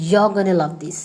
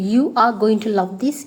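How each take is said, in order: First: "You're gonna" run together; shortened form. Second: Said in the usual way. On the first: Shown as a demonstration. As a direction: reduce going to into "gonna". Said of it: "you can say". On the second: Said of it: "Instead of telling".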